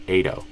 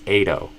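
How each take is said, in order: No difference in how they are said.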